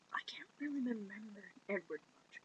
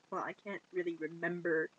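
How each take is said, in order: First: Breathy whisper. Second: Said in the usual way. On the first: Retold or imitated. Bella whispering to Jacob that she can't remember. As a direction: drop to a whisper on the repeat. Same line repeated as whisper.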